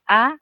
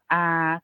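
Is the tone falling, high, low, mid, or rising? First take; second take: high; mid. First: The pitch is high. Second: The pitch stays level in the middle. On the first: "siang tri atau high tone yang kita sebutnya a" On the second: "siang saman atau middle tone yang kita sebutnya a"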